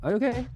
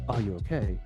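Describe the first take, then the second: First: It is said lightly at normal speed. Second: It is said slower, lower and more emotionally. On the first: A routine check on someone. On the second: The friend is seriously hurt.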